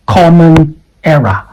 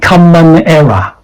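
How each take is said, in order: First: COMMON said as "KOM-mun"; correct open O. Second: COMMON said as "KUM-mun"; wrong vowel. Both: Shown as a demonstration. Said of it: "not common error".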